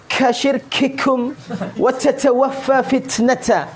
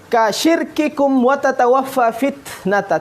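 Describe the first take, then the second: First: The k and t sounds carry a breathy puff. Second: The k and t sounds are crisp, without breath. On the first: The speaker calls it wrong. "Tidak boleh dibaca" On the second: The speaker calls it right. "syiddahnya yang harus dimunculkan"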